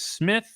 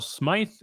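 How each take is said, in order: First: The name has a short 'ih' vowel. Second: The name has a long 'eye' vowel. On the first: The speaker calls it right. "It is Smith" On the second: The speaker calls it wrong. "a lot of people probably want to call Smythe"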